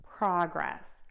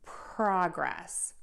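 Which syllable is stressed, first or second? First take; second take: first; first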